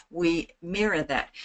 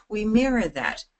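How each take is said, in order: First: Mirror a calm, slow talker; slow and clear. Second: Lifted, livelier delivery; high energy. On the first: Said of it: "talk slowly and succinctly and clearly". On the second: Coach showing how to match lively talkers, lifted and energetic. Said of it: "talk high energy". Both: Shown as a demonstration.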